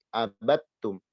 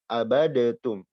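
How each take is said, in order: First: The d merges fully into a doubled t. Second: A separate d sound is heard before the t. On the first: The speaker calls it right. "tapi abattum" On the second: The speaker calls it wrong. "Kita tidak baca abadetum"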